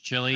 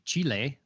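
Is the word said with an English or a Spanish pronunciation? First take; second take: English; Spanish. First: It is said with an American English pronunciation. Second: It is said with a Spanish pronunciation. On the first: "just completely, you know, just American English, chili" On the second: "as it would be in like Spanish or Portuguese"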